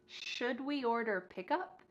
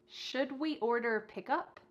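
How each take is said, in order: The two takes are said the same way.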